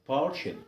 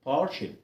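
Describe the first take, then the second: No difference in how they are said.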